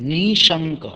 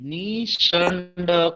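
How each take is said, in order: First: No 'd' sound is pronounced inside the word. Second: A 'd' sound is pronounced inside the word. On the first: The speaker calls it right. "ડ નથી વાંચવાનો" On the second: The speaker calls it wrong. "ઘણા ડ વાંચે આને"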